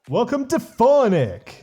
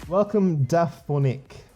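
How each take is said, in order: First: The greeting is said in a cool, stylish way. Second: The greeting is said plainly, without styling.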